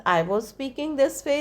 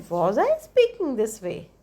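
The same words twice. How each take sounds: First: "I was speaking this way" as a plain assertion; statement intonation. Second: "speaking this way" held high after "Was I"; question intonation. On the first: Teacher showing what a statement sounds like, statement intonation. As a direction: state "I was speaking this way" without a questioning lift. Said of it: "is a statement". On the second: Teacher showing what a question sounds like, question intonation. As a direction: ask "Was I speaking this way" with a raised questioning tune. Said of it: "So that is question". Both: Shown as a demonstration.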